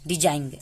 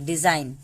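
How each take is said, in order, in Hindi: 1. अंतिम n से पहले g की ध्वनि बोली जाती है। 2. अंतिम n से पहले g की ध्वनि नहीं बोली जाती है। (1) "डिजाइन ऐसा नहीं पढ़ेंगे" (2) "जी को गायब कर दिए"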